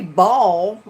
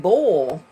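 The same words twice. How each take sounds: First: "ball" drawn out, the misheard word; BALL not bull. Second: "bull" drawn out, the intended word; BULL not ball. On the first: Streamer explains to chat the misheard word, "ball" pronounced open. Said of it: "I didn't say ball, I said bull". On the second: Streamer corrects chat's mishearing, "bull" pronounced rounded. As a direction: say "bull" with a rounded, closed vowel. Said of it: "I said bull". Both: Shown as a demonstration.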